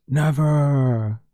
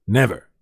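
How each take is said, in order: First: A drawn-out, playfully higher Never; drawn-out teasing Never; mock solemn never. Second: Said in the usual way. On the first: Shown as a demonstration. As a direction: stretch out Never. with a wink. Sarcastic repeated denial.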